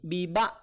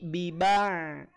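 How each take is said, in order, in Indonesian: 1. Bunyi ain di akhir terputus begitu saja. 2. Bunyi ain di akhir mengalir sedikit keluar. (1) "tidak diputus" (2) "Ainnya alirkan sedikit"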